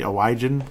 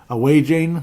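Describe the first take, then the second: First: The name ends in a short 'an' sound. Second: The name ends in a long 'ane' sound. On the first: This is the family's own pronunciation. The speaker calls it right. "That's our last name. That's how it's pronounced" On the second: A caller gets the name wrong. The speaker calls it wrong. "That's a real common one"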